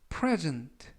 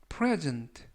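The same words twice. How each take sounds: No difference in how they are said.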